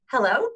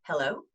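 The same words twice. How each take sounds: First: High, loud, rising hello; tense, high-pitched greeting. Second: Hello on a deep out breath; relaxed greeting on the out breath; low, relaxed hello. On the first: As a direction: say it from the top of your breath, pitched high. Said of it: "I go really high". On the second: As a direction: let it drop low and easy. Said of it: "you go nice and low". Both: Shown as a demonstration.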